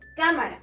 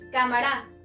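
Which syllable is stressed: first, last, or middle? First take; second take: first; last. First: The stress is on the first syllable. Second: The stress is on the last syllable. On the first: The speaker calls it right. "Aquí" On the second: The speaker calls it wrong. "Si estuviera aquí la sílaba tónica"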